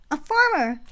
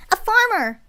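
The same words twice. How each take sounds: First: Put-on loud, high excited kid; child shouting. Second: Put-on high, loud child's cry; excited shout. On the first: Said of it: "A child shouted". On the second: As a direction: shout it out like a thrilled kid.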